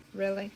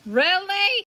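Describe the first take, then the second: First: Said in the usual way. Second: 1 exasperated. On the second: Real, not acted. Exasperated reaction.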